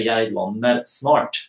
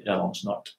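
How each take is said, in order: First: "Jeg lander snart" slow, the s in snart kept clear; slow, separate. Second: "Jeg lander snart" quick, lander and snart merged with sh; quick, linked. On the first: Teacher showing careful slow speech. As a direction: take "Jeg lander snart" slowly, words apart. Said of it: "if I want to speak slowly". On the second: Teacher showing quick everyday speech. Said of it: "when I speak quickly". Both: Shown as a demonstration.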